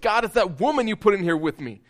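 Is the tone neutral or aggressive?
aggressive. It is said in an aggressive tone.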